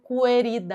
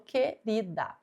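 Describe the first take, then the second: First: The U after the Q is pronounced. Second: The U after the Q is silent. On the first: The speaker calls it wrong. "Eu não falo querida" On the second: The speaker calls it right. "o Q e o U tem apenas um som"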